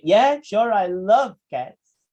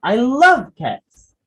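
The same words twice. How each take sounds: First: Slow, drawn-out sarcastic "I love cats"; mean the opposite of love; dripping mock enthusiasm. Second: Sincere slow loving "I love cats"; tender adoration. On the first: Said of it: "sarcastic person". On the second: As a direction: say it meaning every word. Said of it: "Say it in a loving way". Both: Shown as a demonstration.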